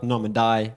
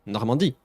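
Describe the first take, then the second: First: "Normandy" as "NOR-muh-dye"; wrong English pronunciation. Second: "Normandy" as "nor-mahn-DEE", ending up; nasal middle vowel and "DEE" on "Normandy"; correct French pronunciation. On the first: Teacher dismissing a wrong version, anglicised "Normandy". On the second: Teacher modelling the name for viewers, French "Normandy". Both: Shown as a demonstration. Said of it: "Not Normandy or whatever".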